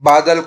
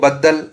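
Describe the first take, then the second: First: The middle consonant is short and single. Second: The middle consonant is long and doubled. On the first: This is the standard form. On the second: This is the Khari Boli dialect form.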